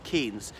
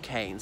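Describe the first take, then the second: First: The vowel sounds like the one in keens. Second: The vowel sounds like the one in canes. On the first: This is how many people assume it is said. The speaker calls it wrong. "A lot of people think it's Keynes" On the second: This is how the family says the name. The speaker calls it right. "his surname is pronounced Keynes"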